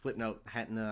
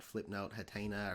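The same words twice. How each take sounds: First: "Hatena" said as HAT-nuh; unsure pronunciation. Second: "Hatena" said as huh-TAY-nuh; alternative pronunciation. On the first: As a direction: squeeze "Hatena" into HAT-nuh, first syllable stressed. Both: Real, not acted. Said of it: "don't really know how you pronounce it".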